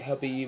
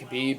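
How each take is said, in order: First: The name begins with a soft H sound. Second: The name begins with a hard K sound. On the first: The speaker calls it right. "it's meant to be Habib" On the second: The speaker calls it wrong. "I'm so used to saying Khabib"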